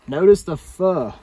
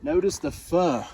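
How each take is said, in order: First: "Notice the fur." said louder, stress on "Notice", falling; louder tour-guide repeat. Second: Said in the usual way. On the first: Shown as a demonstration.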